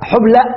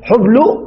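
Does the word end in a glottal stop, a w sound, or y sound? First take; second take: glottal stop; w sound. First: The word ends with a glottal stop. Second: The word ends with a w sound. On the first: "قلبنا ماذا همزة" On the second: "قلبنا ماذا واو"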